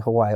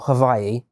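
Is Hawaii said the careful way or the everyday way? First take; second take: everyday; careful. First: Hawaii is said the speaker's usual, everyday way. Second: Hawaii is said the careful way, as recommended. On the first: The speaker calls it wrong. "I might still just say Hawaii" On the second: The speaker calls it right. "I've realized you should pronounce it"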